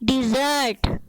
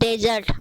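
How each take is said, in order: First: The first syllable has an 'i' vowel. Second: The first syllable has an 'e' vowel. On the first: The speaker calls it right. "सही प्रोनाउंसिएशन" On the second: The speaker calls it wrong. "गलत प्रोनाउंसिएशन"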